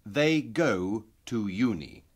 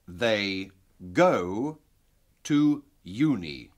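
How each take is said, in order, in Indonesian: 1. Kalimat ini diucapkan cepat, seperti dalam percakapan. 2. Kalimat ini diucapkan lambat dan hati-hati. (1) "lebih cepat, seperti dalam percakapan sehari-hari" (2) "dengan perlahan-lahan"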